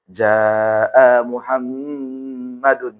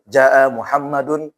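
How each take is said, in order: First: The vowel in jaa is drawn out long. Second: The vowel in jaa is kept short. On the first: The speaker calls it wrong. "nggak boleh" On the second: The speaker calls it right.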